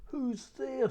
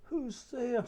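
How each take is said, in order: First: High put-on granny voice from the wolf; the wolf pretends to be the old grandmother; a wolf mimicking Grandmother, high and sweet; wolf faking Grandmother. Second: Put-on high old granny calling out; a lightly voiced grandmother asking who knocks; Grandmother's voice. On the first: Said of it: "trying to talk in Grandmother's voice". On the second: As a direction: call out like a frail old grandmother. Grandmother answers the door.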